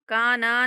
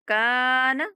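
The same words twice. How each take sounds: First: The final syllable after the n is drawn out. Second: The final syllable after the n is short. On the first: The speaker calls it wrong. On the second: The speaker calls it right.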